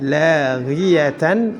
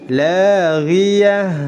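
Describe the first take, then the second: First: The word ends in tan. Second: The word ends in a soft h. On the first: The speaker calls it wrong. "Tidak boleh dibaca" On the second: The speaker calls it right. "Tetap disukunkan akhir kata tersebut"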